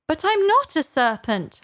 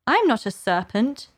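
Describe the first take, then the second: First: High-pitched, emphatic denial; insistent protest. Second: Mildly indignant denial. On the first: Alice denying it to the pigeon, insistent. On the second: Alice denying the pigeon's charge, indignant. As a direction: protest with a touch of offence. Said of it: "said Alice indignantly". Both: A narrator's reading.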